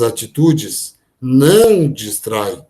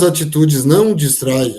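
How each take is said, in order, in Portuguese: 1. 'Não distrai' é dito com muita ênfase. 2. 'Não distrai' é dito sem ênfase especial.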